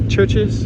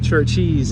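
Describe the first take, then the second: First: It sounds like 'church' plus a plain 's'. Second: An extra 'ee' sound follows 'church'. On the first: The restaurant's real name. The speaker calls it right. "like a church, apostrophe S" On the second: A childhood nickname for the restaurant. The speaker calls it wrong. "we used to call it Churchies. But it's not Churchies"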